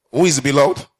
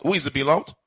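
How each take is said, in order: First: Pressed louder the second time; preacher repeats it louder for emphasis. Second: Said in the usual way. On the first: Acted. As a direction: push the question at the congregation.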